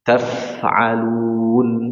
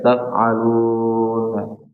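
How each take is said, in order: First: The f is said clearly with audible breath. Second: The f is said weakly without audible breath. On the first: The speaker calls it right. "Coba taf'alun" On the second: The speaker calls it wrong. "enggak diberikan sifat ha, hams"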